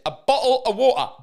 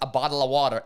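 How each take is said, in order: First: It is said in a careful, standard British accent. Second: It is said in an imitated American accent. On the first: "that's how you properly pronounce it" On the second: "or the Americans"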